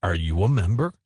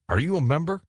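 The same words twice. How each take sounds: First: Lower, insistent repeat of the question; lightly acted, pointed repeat; repeated challenge. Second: Higher-pitched, offhand challenge; lightly acted challenge, pitched up; challenging question. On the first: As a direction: press the question, pitched down. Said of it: "I repeated, looking at him sideways". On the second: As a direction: ask it high, as a club member questioning an intruder. Challenges ghost, first asking. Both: A narrator's reading.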